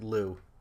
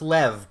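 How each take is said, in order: First: The name ends in a long oo vowel. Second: The name ends in a v sound. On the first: This is how Americans pronounce the name. "the Americans pronounce it Lou" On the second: This is the name's original pronunciation. "it's Lev"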